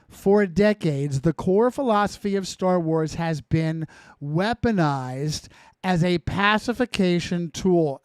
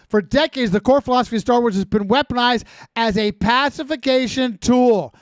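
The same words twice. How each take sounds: First: It is read more slowly. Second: It is read at a normal pace.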